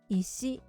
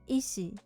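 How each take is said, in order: First: It has the pitch accent of 'stone'. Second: It has the pitch accent of 'doctor'. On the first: The word means stone. "which means stone" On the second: The word means doctor. "which means doctor"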